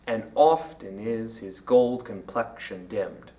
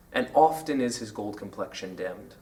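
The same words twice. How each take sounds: First: Slow, low "And often is his gold complexion dimmed", beat by beat with "is his" unstressed; pyrrhic stressing. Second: Low, soft recitation of "And often is his gold complexion dimmed"; quoted verse line. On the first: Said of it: "includes a pyrrhus". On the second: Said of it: "Some people say that the line". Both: Shown as a demonstration.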